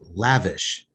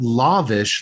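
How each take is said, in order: First: The first vowel differs from the one in 'lava'. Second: The first vowel sounds like in 'lava'. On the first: The speaker calls it right. "it's lavish" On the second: The speaker calls it wrong. "It's not lavish like a lava lamp"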